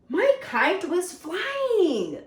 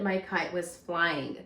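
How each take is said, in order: First: It is said in an excited tone. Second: It is said in a calm, plain tone.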